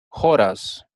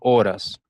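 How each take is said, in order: First: The word begins with an audible h sound. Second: The word begins with a silent h. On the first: It is the Sanskrit term for a time unit. The speaker calls it right. "Jora, tal como lo estoy pronunciando" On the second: It is the ordinary Spanish word for hours. The speaker calls it wrong. "no horas"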